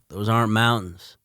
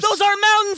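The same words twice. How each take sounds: First: It is said calmly, with little urgency. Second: It is said urgently, in alarmed panic. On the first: The danger is noted without alarm. The speaker calls it wrong. "He didn't say it with too much urgency in that moment" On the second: The danger is terrifying and demands fleeing. The speaker calls it right. "his reaction should have been like, oh! Holy shit!"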